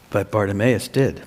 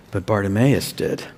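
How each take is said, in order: Both takes have the same delivery.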